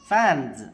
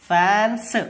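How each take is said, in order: First: The word ends with a buzzing z sound. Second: The word ends with a hissing s sound. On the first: The speaker calls it right. "జా అవుతుంది" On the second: The speaker calls it wrong. "No"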